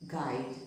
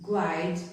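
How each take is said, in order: First: "guide" with silent U, like gide; correct pronunciation. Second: "guide" with the U sounded, like gwide; wrong pronunciation. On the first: Teacher showing learners the correct way, "guide" with U silent. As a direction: say "guide" with a hard G straight into the I. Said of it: "we pronounce it as". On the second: Teacher showing learners the wrong way, "guide" said as gwide. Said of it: "We don't pronounce it as". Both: Shown as a demonstration.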